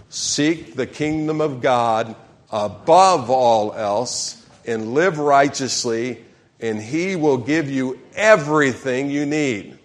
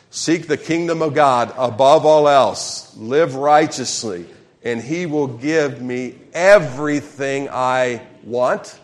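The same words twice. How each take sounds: First: Slow, measured congregational reading; leading a group reading. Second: Slow, loud reading with EVERYTHING punched; emphasized key words. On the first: Real, not acted. Pastor leads congregation in reading scripture together, slow and deliberate. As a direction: read it out slowly for everyone to join in. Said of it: "Everybody, let's read this together". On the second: Shown as a demonstration. Pastor rereads verse with congregation, stressing "everything" loudly. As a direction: hit "everything" hard and stretch it out. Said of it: "let's emphasize some key words".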